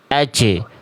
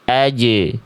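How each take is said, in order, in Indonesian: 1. Konsonannya memantul dengan napas yang bocor keluar. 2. Konsonannya memantul kering dengan napas ditahan. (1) "bukan aje" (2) "tapi aje, pantulannya kering"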